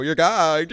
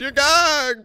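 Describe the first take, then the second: First: Said in the usual way. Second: "You're gagged" pitched way up, sliding down on gagged; mocking high-pitched jab; high sing-song gagged. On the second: Real, not acted. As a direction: tease it up high, stretching gagged.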